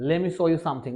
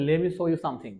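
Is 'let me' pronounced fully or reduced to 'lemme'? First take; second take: reduced; reduced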